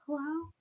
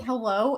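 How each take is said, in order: First: Very soft, tiny hello; almost whispered. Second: A touch lower, imitating a man's phone hello; low gravelly man. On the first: Retold or imitated. Woman answering early morning call, almost whispering. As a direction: barely voice it, close to a whisper. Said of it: "And I'll, like, whisper almost". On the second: Man answering early morning call, low and gravelly. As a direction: lightly mimic a gravelly husband answering. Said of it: "his voice is supposed to be, like, low and, like, gravelly".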